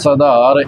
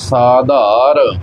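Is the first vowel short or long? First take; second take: short; long. First: The first vowel is short. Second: The first vowel is long. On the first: The speaker calls it wrong. "ਆਮ ਤੌਰ 'ਤੇ ਅਸੀਂ ਦੇਖਦੇ ਹਾਂ ... ਇਸ ਪ੍ਰਕਾਰ ਵੀ ਇਸ ਦਾ ਉਚਾਰਨ ਕਰ ਦਿੰਦੇ ਨੇ" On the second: The speaker calls it right. "ਦੋਵਾਂ ਕੰਨਿਆਂ ਦੇ ਨਾਲ ਇਸ ਦਾ ਉਚਾਰਨ ਕਰਨਾ ਹੈ"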